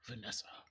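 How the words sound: The name is said in a serious way.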